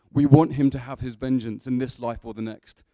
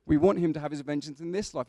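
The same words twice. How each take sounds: First: Very loud, heroic declamation; Russell Crowe. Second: Said in the usual way. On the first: Acted. Preacher carrying Gladiator's speech to the congregation, in a booming heroic voice. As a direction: thunder it out like a vow of revenge. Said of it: "That's quite Russell Crowe".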